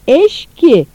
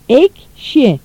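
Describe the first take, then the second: First: The ş sound comes before the k. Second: The k sound comes before the ş. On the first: The speaker calls it wrong. "yanlış" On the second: The speaker calls it right. "doğru"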